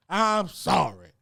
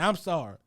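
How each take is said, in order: First: I'M SORRY stretched long and slow; drawn-out apology. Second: Said in the usual way. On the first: Real, not acted. Comic refuses to believe the designer is real, drawn-out apology. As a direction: draw out I'M SORRY at half speed.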